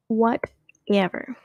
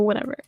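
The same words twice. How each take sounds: First: WHATEVER stretched out slowly, in two pieces; drawn-out whatever. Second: Said in the usual way. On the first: Pretend. Host brushing off a joke nobody liked, drawn-out mock dismissal.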